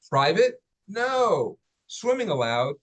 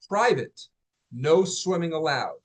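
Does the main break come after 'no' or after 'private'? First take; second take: after no; after private. First: Breaks come after 'private' and after 'no'. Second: The break comes after 'private', 'no swimming' joined. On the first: Swimming is permitted here. "But what if it was this?" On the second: Swimming is forbidden here. "most people will say this out loud as"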